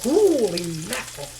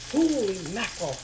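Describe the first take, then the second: First: Loud, thrilled holy mackerel; delighted exclamation. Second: Said in the usual way. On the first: Real, not acted. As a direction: burst out in delight at the big fish. Amazed at huge mackerel.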